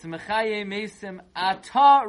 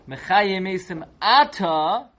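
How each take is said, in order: First: The stress in 'Ata' is on the last syllable. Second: The stress in 'Ata' is on the first syllable. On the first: It is said in the summer. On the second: It is said during the rainy season.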